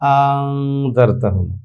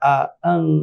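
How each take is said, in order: First: One glottal stop, then a long vowel. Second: Two separate glottal stops open the word. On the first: "দ্বিতীয়টা আলিফ বানাতে হলে ওটার হরকত ফেলে দিয়ে আমাকে পড়তে হবে" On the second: "দুটো হামজা উচ্চারণ করলাম"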